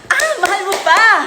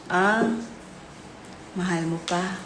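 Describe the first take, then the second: First: It is said in a supportive tone. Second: It is said in a sad tone.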